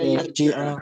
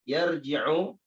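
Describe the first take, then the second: First: The word ends with an 'a' vowel. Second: The word ends with an 'u' vowel. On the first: The verb follows the particle hatta. "Karena kemasukan hatta ... maka dibaca apa? Dibaca yarji'a" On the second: The verb stands without a preceding particle. "Perhatikan fi'il mudhari ini yarji'u"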